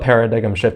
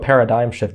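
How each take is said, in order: First: The G is pronounced as an extra syllable. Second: The G is silent, ending like dime. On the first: The speaker calls it wrong. "You don't do a paradigm shift" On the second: The speaker calls it right. "you do a paradigm shift"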